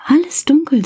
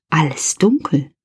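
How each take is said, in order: First: Much higher, emphatic repeat; exclaimed aloud. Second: Hushed whisper, dark room; whispered suspense. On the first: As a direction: burst out with the news. Repeats, now exclaimed to kids. (viel höher, betont ausgerufen) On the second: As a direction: whisper it like you are afraid of the dark. (geflüstert, ängstlich-gespannt) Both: A narrator's reading.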